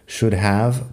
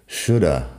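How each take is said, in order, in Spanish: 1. La palabra have se pronuncia completa. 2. El have se reduce a una vocal débil.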